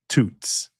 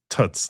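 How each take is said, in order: First: The vowel is a long 'oo' as in goose. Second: The vowel is short, close to 'uh'. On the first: The speaker calls it wrong. "the oo that you have in goose" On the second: The speaker calls it right. "It's more of an uh"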